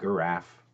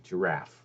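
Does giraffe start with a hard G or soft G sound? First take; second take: hard G; soft G. First: It starts with a hard G sound. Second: It starts with a soft J-like sound. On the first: "why isn't it giraffe?" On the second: "the word giraffe exists"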